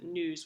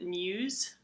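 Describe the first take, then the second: First: No 'y' glide comes before the vowel. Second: A 'y' glide comes before the vowel. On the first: "without the glide" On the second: "with the glide"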